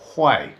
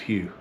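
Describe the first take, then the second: First: The name sounds like 'Hui'. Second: The name sounds like 'Hugh'. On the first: The speaker calls it right. "it's actually pronounced Hui" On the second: The speaker calls it wrong. "I've been pronouncing Hugh wrong"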